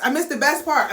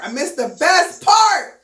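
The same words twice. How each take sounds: First: Said in the usual way. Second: Dramatic lament. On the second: Real, not acted. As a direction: wail it in mock dismay. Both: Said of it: "Oh, oh, oh".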